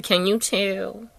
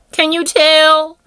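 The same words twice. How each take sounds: First: Said in the usual way. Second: Loud, high and drawn-out; emphatic repeat. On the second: Real, not acted. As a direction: belt out the question, stretching it slowly.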